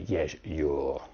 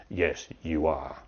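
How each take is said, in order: First: "you're" merged into one syllable at the end; contracted you're. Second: "you are" as two words, "are" in full; uncontracted you are. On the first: Teacher showing the answer nobody gives, contracted "you're". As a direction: cut "you are" down to a final "you're". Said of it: "The teacher doesn't say". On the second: Teacher answering a late student, full "you are". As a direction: finish on a full, separate "are". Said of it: "And the teacher says". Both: Shown as a demonstration.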